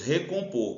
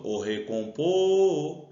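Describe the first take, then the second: First: Said in the usual way. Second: "recompor" with a long held final "por"; calling the word. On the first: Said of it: "Qual é a sílaba tônica?". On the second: Shown as a demonstration. Teacher calls the word to find its stress, drawn-out "por" in "recompor". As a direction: call out "recompor", stretching the last syllable. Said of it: "De novo".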